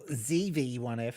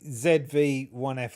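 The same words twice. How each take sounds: First: It is said in an American accent. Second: It is said in a non-American accent.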